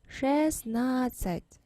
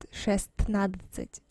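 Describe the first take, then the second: First: The t sound in the middle is silent. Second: The t sound in the middle is pronounced. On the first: The speaker calls it right. "but we say шестнадцать" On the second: The speaker calls it wrong. "we say not not шестнадцать"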